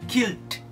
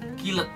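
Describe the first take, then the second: First: The ending joins without an extra syllable. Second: The ending is sounded as a separate syllable. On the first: The speaker calls it right. "Yang benar adalah killed" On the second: The speaker calls it wrong. "tidak perlu mempronounce kata killed guys, karena ini salah"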